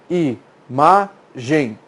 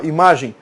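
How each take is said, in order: First: Imagem very slowly as i, ma, gem; long gaps between i, ma and gem; syllable by syllable. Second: Said in the usual way. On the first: Shown as a demonstration. Teacher demonstrating the chin trick, imagem slowly syllable by syllable. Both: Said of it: "E fale a palavra".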